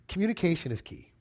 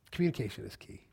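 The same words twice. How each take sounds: First: "Communication" hit, then fall; stress on communication. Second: "Communication is key" said softer and lower; quiet repeat. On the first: Preacher stating the point to the church, firm. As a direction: state "Communication is key" firmly. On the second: Preacher repeating the point to the church, quietly. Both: Shown as a demonstration.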